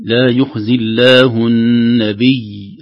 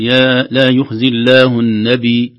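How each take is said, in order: First: Slow recitation, "النبي" ending on a held, doubled ي; doubled final ya. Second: Slow recitation, "النبي" ending on a light unstressed ي; mistaken stop. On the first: Teacher corrects the stop, doubled ي with sukun. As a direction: press and hold the ي closing "النبي". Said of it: "الياء مشددة يوقف عليها بشدة". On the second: Teacher shows how some people stop, final ي undoubled. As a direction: let "النبي" end without doubling its ي. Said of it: "بعض الناس يقف عليها يقول". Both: Shown as a demonstration.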